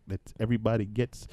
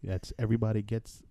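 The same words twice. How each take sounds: The two takes are said the same way.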